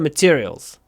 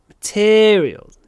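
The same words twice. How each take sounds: First: The stressed vowel is short and plain. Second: The stressed vowel is clearly drawn out. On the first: The speaker calls it wrong. "Это не просто materials" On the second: The speaker calls it right. "Надо тянуть"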